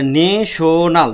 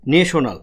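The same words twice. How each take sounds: First: ন্যাশনাল slowed into ne, sho, nal; syllable by syllable. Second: Said in the usual way. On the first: Shown as a demonstration. Teacher recaps syllables for students, ন্যাশনাল split slowly. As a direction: separate the three syllables of ন্যাশনাল. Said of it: "আমি প্রথমে বলছি নে". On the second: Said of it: "তাহলে ন্যাশনাল".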